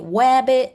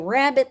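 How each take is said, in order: First: The word begins with a W sound. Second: The word begins with an R sound. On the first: This is the form a young child might say. "they might say wabbit. It sounds cute" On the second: This is the form young children do not say. "They don't say rabbit"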